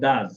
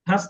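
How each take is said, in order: First: The word begins with a soft d-like sound. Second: The word begins with an aspirated t sound. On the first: The speaker calls it right. "উচ্চারণ হচ্ছে দাস" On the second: The speaker calls it wrong. "হাস না"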